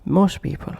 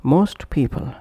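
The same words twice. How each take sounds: First: MOST PEOPLE as "mos people"; dropped T. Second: MOST PEOPLE with the t of MOST released; full final T. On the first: Teacher showing connected pronunciation, dropped T. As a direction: push "mos" straight into "people". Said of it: "omitting T or T completely". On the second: Teacher showing separate words, full final T. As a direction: say "most" fully, then "people". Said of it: "pronounced as". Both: Shown as a demonstration.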